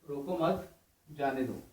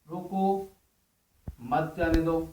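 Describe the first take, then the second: First: The pause comes after 'mat'. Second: The pause comes after 'roko'.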